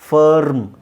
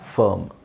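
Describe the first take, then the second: First: The r sound is clearly pronounced in the word. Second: The r sound is silent in the word. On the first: The speaker calls it wrong. "ಅಲ್ಲಿ ಆರ್ ಮತ್ತು ಟಿ ಕರೆಕ್ಟಾಗಿ match ಆಗಲ್ಲ" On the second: The speaker calls it right. "ಅದ್ರ ಬದಲು ನೀವು"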